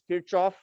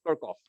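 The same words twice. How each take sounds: First: The name is said the Indian way. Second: The name is said the American way. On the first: "The way we pronounce this uh, name over there is Kirchhoff" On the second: "When I first came to the U S"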